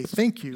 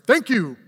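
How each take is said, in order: First: Said in the usual way. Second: Emphatic, exclaimed "Thank you". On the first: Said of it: "we put a little period after". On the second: Shown as a demonstration. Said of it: "with an exclamation mark".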